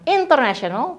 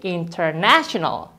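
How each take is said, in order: First: The main stress falls away from the 'na' syllable. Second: The main stress falls on the 'na' syllable. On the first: The speaker calls it wrong. "Bukan international" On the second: The speaker calls it right. "tapi international"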